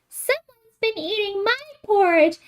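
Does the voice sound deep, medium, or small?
small. It is said in a small, little voice. "in his wee little voice"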